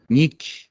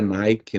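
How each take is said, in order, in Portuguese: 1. É pronunciada com a pronúncia original do grego. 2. É pronunciada com a pronúncia do inglês americano. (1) "seria essa raiz que significa vitória" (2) "numa pronúncia americanizada"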